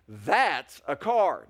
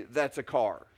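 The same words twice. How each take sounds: First: Drawn-out approving "That's a car"; admiring affirmation. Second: Said in the usual way. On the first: Shown as a demonstration. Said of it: "that's an affirmation". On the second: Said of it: "That's a statement of fact".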